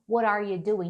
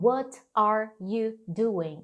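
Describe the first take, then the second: First: The words are reduced and run together. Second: Each word is pronounced separately and fully. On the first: This is how native speakers actually say it. The speaker calls it right. "e sim" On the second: This is not how native speakers say it. The speaker calls it wrong. "Por que que eles não falam"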